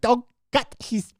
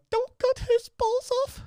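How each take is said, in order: First: Queen impression slipping into German, high and slow; high-pitched, drawn-out German-accented queen; accidental German accent. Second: Very high, slow mock English queen; badly faked royal English accent, piercingly high and drawn out. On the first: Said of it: "I don't know why she's German". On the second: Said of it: "I can't do a fucking English accent".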